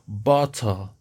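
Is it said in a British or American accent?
British. It is said in a British accent.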